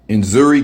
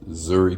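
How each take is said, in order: First: The name begins with an audible N sound. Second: The name begins directly with a Z sound. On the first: The speaker calls it wrong. "Did I say it right?" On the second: The speaker calls it right. "make the N like basically silent"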